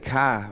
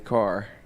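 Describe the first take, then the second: First: The final R is dropped, Boston style. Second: The final R is clearly pronounced.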